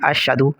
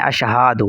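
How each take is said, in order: First: The 'ha' sound is left out entirely. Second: The 'ha' sound is stretched long. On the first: "हा को बिल्कुल हज़फ कर देते हैं" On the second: "हा को खींच कर पढ़ते हैं"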